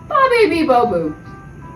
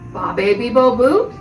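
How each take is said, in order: First: The pitch falls at the end. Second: The pitch rises at the end. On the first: It answers something. "as an answer to the question" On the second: It asks something. "like a question"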